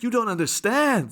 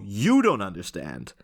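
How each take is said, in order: First: It is said in a desperate, pleading tone. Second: It is said in a calm, plain tone.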